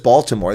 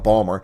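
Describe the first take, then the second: First: The name is said with all three syllables. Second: The name is squeezed into two short syllables. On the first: "no one says Baltimore" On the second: "They say Balmer, B A W L, Balmer"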